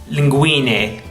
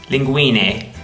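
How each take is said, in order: The two takes are said the same way.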